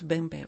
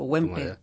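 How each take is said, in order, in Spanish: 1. El nombre empieza con un sonido parecido a b. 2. El nombre empieza con un sonido w. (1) "en alemán es... Sin pronunciar la W" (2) "Yo le llamo Wempe"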